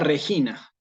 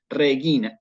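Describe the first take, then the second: First: The g is said like a Spanish name. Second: The g is hard, as in gato. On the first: The speaker calls it wrong. "nunca Regina" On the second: The speaker calls it right. "Esto es la pronunciación"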